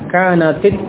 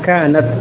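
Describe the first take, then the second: First: The final t takes an i vowel. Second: The final t has no vowel after it. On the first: The word links to the following al- noun. "maka tak yang pada kanat dibaca kasrah ya" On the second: This is the base form of the word. "asalnya taknya sukun ya"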